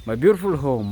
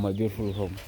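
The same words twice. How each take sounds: First: Loud, proud showing off of the house; proud exclaim. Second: Said in the usual way. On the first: Real, not acted. Vlogger showing viewers his home, loud and proud. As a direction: belt it out proudly.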